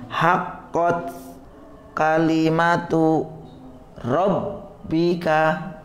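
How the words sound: The phrase is read in separate chopped pieces. It is a practice reading. "boleh dipotong ya dalam rangka latihan"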